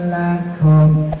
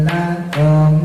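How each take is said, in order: The two takes are said the same way.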